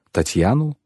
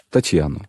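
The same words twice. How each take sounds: First: Higher, rising echo of disbelief; taken aback, voice going up at the end; startled question. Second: Said in the usual way. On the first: A narrator's reading. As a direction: repeat the name as a stunned question. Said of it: "Капитон вытаращил глаза".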